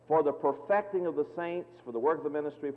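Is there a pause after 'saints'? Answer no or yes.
yes. There is a pause after 'saints'. The two phrases name separate purposes of the offices. The speaker calls it wrong.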